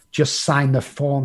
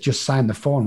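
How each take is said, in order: First: Slower, pressing repeat of the plea; insistent repeat. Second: Said in the usual way. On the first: Retold or imitated. Girlfriend urging Rob to sign the form, slow insistent. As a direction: lean on each word as she urges again. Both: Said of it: "she kept saying".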